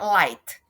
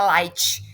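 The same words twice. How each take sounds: First: It is said with an English pronunciation. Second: It is said with a Portuguese-style pronunciation. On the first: This is how the word is actually said. "na verdade" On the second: This is how Brazilians commonly say it. "Aportuguesado aí"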